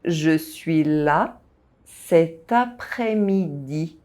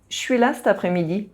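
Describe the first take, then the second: First: The sentence is spoken slowly. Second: The sentence is spoken quickly. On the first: The speaker calls it right. "By speaking slowly" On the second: The speaker calls it wrong. "rushing to say this sentence as a native speaker would"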